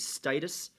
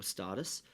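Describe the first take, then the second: First: "status" said as STAY-tus; first syllable of "status" rhymes with day; STAY-tus pronunciation. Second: "status" said as STAT-us, softer; soft aside, first syllable of "status" like stat; STAT-us pronunciation. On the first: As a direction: say "status" with a long A, as in state. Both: Shown as a demonstration. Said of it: "or status".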